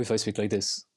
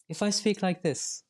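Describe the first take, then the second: First: Dropped low for contrast; lower demo voice. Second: Slowed down, drawn out a little; slow demo voice. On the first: Contrasting a voice for the interviewer, lower. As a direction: say it lower, a different person. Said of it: "Or if I speak like this". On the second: Showing an interviewer how speech shapes meaning, slow. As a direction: spell it out slowly. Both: Shown as a demonstration.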